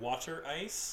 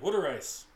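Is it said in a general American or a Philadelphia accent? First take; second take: general American; Philadelphia. First: It is said in a general American accent. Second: It is said in a Philadelphia accent.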